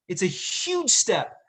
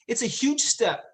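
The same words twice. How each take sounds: First: "It's a huge step" slowed right down, leaning on "huge"; "huge" stretched and stressed in a slow, deliberate repeat; slow emphasis. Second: Said in the usual way. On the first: Real, not acted. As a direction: drag out "huge step" to drive it home.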